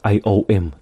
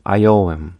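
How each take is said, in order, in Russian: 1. Между словами есть пауза. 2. Слова идут вместе, без паузы. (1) "Так не было, не должно быть" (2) "Чтобы не разрывалось"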